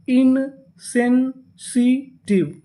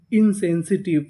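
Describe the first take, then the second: First: "insensitive" very slow, broken as in-sen-si-tiv; syllable by syllable. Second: Said in the usual way. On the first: Shown as a demonstration. Teacher sounds out the full word, "insensitive" slowly in four pieces. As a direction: hold each syllable of "insensitive" apart. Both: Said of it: "पूरी meaning क्या बनी".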